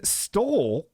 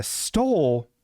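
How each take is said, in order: First: Stole stretched very slow; drawn-out stole. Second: Stole stretched very slow and falling; drawn-out stole. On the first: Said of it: "speaking of, stole". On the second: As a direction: drag out stole with a fall. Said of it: "you know what really stole". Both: Shown as a demonstration.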